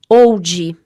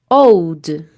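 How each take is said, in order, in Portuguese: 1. Depois do D final entra uma vogal a mais. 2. O D final é suave, sem vogal extra.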